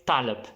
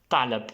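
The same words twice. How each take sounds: Both takes have the same delivery.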